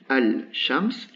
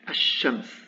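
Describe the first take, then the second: First: The l is pronounced before the sh. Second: The l is dropped and the sh is doubled. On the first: "Normalement j'ai ça" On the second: "Le lam a complètement disparu"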